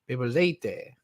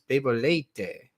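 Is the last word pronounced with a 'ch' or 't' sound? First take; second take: t sound; t sound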